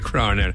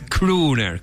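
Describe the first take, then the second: First: The first vowel is said as o. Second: The first vowel is said as u. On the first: The speaker calls it wrong. "Yo también dije Crooner" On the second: The speaker calls it right. "Con la doble O en inglés es una U"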